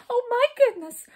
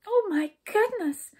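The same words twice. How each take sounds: First: Very high, loud wail; miserable wail. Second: High, slow exclamation of fright; frightened. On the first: Jump despairing after Skip, miserable loud wail. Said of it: "wailed Jump in a miserable voice". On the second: Skip hearing the princess is lost, frightened high voice. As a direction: gasp out the words in high alarm. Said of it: "said Skip in a frightened voice". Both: A narrator's reading.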